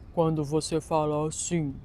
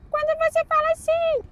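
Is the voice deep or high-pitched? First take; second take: deep; high-pitched. First: It is spoken in a deep, low voice. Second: It is spoken in a thin, high voice.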